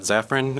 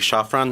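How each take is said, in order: First: The surname is said the anglicized way. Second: The surname is said the original Polish way. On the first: This is the form the family uses day to day. "my name is [name]" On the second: This is the original form from the Polish side of the family. "the actual correct pronunciation would be Shafran"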